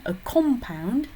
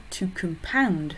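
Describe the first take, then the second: First: "compound" as a noun, COM punched higher; COM-pound, strong first syllable; stress on COM. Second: "compound" as a verb, weak com, strong POUND; slow com-POUND, stress at the end. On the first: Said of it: "accent sur a com". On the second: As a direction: hit the second syllable of "compound". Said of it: "le verbe to compound". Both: Shown as a demonstration.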